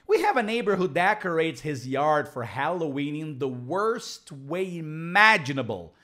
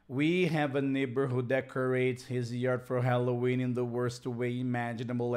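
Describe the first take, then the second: First: It is read lively with clear stress. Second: It is read flatly with little stress. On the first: Listeners will understand it. The speaker calls it right. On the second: Listeners will not understand it. The speaker calls it wrong.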